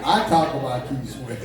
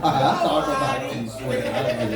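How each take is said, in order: First: Laughing. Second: Laughing louder. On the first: Laughing defence of [name]. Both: Real, not acted.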